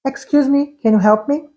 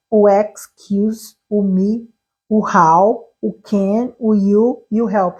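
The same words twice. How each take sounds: First: "Excuse me, can you help me?" run together as one connected question; "Excuse me, can you help me?" in one flow, no gaps between words; whole phrase joined. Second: "excuse", "me", "how", "can", "you", "help" each said as a separate item; words separated. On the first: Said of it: "Você vai pelo contexto inteiro". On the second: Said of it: "tudo separado". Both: Shown as a demonstration.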